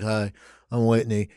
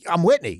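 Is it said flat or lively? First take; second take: flat; lively. First: It is said flat and tired. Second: It is said lively and fresh.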